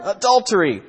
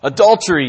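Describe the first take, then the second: First: Higher, more outraged mock cry; louder incensed yell. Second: A mock angry shout, lightly voiced; hammed-up accusing cry of a jealous man; incensed yell. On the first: Husband repeats his accusation to the village, rising mock yell. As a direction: push the accusation up a notch. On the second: Jealous husband accuses the prince, mock angry yell. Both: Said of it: "yelled the incensed husband".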